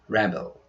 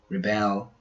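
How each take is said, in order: First: The stress follows the noun pattern. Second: The stress follows the verb pattern. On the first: The word is used as a noun. "As nouns, their pronunciations are" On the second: The word is used as a verb. "As verbs, we pronounce"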